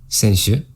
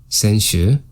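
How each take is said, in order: The two takes are said the same way.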